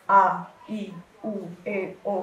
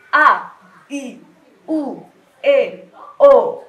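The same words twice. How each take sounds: First: The vowels are said in a plain, ordinary way. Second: The vowels are pushed out forcefully and wide open.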